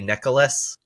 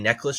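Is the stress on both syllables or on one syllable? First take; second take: both; one. First: Both syllables are given equal stress. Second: The stress falls on just one syllable.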